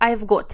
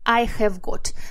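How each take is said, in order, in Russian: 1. Слово have сокращается до звука v. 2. Слово have произносится полностью. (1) "Но очень часто сокращается до I've got" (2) "Полностью эта фраза звучит I have got"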